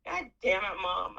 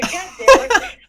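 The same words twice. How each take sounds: First: Said in the usual way. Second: Loud, much higher laughing shout; laughing yell. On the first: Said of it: "I said". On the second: Retold or imitated. Cursing her late mom out loud to the air, laughing yell. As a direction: yell it at the sky, half laughing. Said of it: "I said it to the air".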